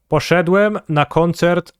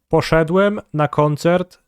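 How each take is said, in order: Both takes have the same delivery.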